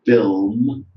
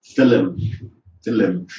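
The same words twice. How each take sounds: First: Film said as one syllable, no vowel between l and m; film in one short beat; correct film. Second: Film said as two syllables, fi-lim; film as fillum, Indian English style; film with added vowel. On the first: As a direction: keep film tight, f-i-l-m. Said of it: "not crisps, it could be crispies". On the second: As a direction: add a vowel between l and m in film. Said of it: "result of L one transfer". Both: Shown as a demonstration.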